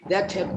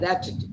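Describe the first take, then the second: First: Two full words are said separately. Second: The words are contracted into one word.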